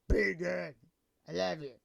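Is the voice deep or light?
deep. It is said in a deep, mannish voice.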